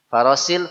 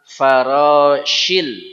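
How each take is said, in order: First: The middle consonant is a plain s. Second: The middle consonant is an sh sound. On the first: The speaker calls it wrong. "farosil salah" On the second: The speaker calls it right. "Ini dia hurufnya shin"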